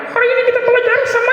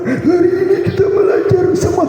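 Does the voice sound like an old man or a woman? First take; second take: woman; old man. First: It is said in a put-on motherly woman's voice. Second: It is said in a put-on old grandfather's voice. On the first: "ubah suara karakternya ibu-ibu" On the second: "Ubah suara kai-kai"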